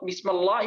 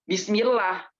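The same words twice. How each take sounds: First: The l in lah is heavy and thick. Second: The l in lah is light and thin. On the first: The speaker calls it wrong. "jadinya tebal" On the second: The speaker calls it right. "itu tipis, bukan tebal"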